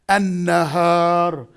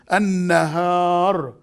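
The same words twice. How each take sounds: First: The article's L merges into a doubled N. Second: The same.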